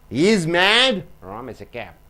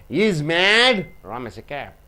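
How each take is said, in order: The two takes are said the same way.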